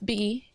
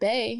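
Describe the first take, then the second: First: The word is said with an 'ee' vowel. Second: The word is said with an 'ay' vowel. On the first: The speaker calls it right. "it's it's B" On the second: The speaker calls it wrong. "It's not Bay"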